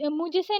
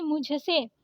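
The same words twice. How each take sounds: First: मुझसे said as mujse, plain j; wrong unaspirated ज. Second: मुझसे with breathed jh; correct aspirated झ. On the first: Teacher showing the mistake, मुझसे with plain j. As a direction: drop the breath from jh in मुझसे. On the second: Teacher correcting it, मुझसे with aspirated jh. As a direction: puff the झ in मुझसे. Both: Shown as a demonstration. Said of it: "मुझसे नहीं मुझसे".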